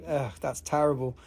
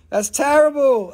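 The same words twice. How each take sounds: First: Said in the usual way. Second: "That's terrible" pitched up and louder, stress on "terrible"; playful mock outrage. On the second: Shown as a demonstration. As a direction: fake horror at "terrible".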